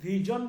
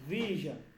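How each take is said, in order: First: The middle consonant is a hard j sound. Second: The middle consonant is a soft zh sound. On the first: The speaker calls it wrong. "আমি ভিজন বলি নাই" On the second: The speaker calls it right. "আমি বলছি ভিশন"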